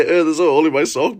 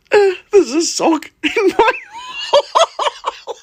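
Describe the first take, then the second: First: Said in the usual way. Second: Higher, louder, breaking into laughter; laughing shout. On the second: Shown as a demonstration. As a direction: shout the mixed-up line through laughter. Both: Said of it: "I muddled my words and said".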